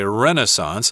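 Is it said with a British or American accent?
American. It is said the American English way.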